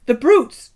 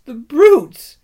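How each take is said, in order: First: High, loud weeping cry; Lucy crying out at the brutes; tearful outrage. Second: High, loud weeping cry, falling; Lucy crying out at the brutes; tearful outrage. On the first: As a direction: cry out through tears. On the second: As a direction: repeat it, breaking with grief. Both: A narrator's reading. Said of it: "tears streaming down her cheeks".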